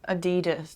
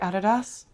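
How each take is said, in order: First: The brand name is said the American way. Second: The brand name is said the German way. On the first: "It's how Americans say it" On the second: "how do Germans pronounce it? Probably Adidas"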